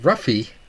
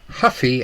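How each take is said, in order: First: The name begins with an English R sound. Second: The name begins with an H-like sound.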